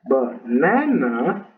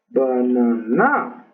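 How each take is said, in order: First: The stress is on the second syllable. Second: The stress is on the third syllable. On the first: The speaker calls it right. "La segunda, que sí es correcto" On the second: The speaker calls it wrong. "Y en la tercera, que no es correcto también"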